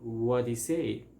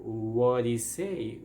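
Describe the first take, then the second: First: Did is dropped, leaving a flapped D-like sound. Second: The same.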